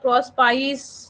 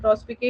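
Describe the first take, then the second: First: The word ends with a 'pice' sound. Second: The word ends with a 'pee-kay' sound. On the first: This is how many other people read it. "इसको बहुत लोग प्रॉस पाइस या कुछ और भी पढ़ते हैं" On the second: This is how the speaker learned it. "मैंने तो प्रॉस पी के ही पढ़ा है"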